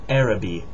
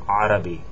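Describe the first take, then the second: First: It begins with a plain vowel and no throat sound. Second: It begins with a harsh sound from the throat. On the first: The speaker calls it wrong. "not Arabi" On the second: The speaker calls it right. "Sounds like you're hawking something up or something"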